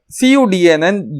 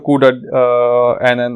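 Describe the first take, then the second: First: Every part is spelled out letter by letter. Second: The first part is said as the word CUDA.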